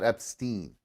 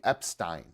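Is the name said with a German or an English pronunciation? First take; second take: English; German. First: The name is given an English pronunciation. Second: The name is given a German pronunciation. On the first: The speaker calls it wrong. "not Epstein" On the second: The speaker calls it right. "in German, ... that would be Epstein"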